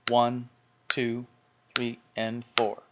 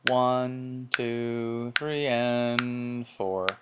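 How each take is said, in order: First: The counting is crisp and evenly timed. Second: The counting is loose and uneven.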